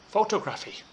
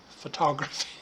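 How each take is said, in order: First: PHOTOGRAPHY said as foh-toh-GRAF-ee; mispronounced photography. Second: Said in the usual way. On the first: Retold or imitated. Teacher showing students their mistake, photography mispronounced as foh-toh-GRAF-ee. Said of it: "you need to stop saying". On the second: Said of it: "so pronounce words accurately".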